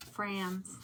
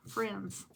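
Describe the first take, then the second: First: Said in the usual way. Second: Friends stretched with a Southern vowel. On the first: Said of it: "did I just, like, stress friends?". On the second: Shown as a demonstration. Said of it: "did I just, like, stress friends? It sounded really Southern".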